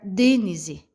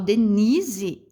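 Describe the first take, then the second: First: The stress is on the first syllable. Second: The stress is on the middle syllable. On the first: The speaker calls it wrong. "Se eu fosse pronunciar o D mais forte" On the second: The speaker calls it right. "esse ni, ele se pronuncia mais forte"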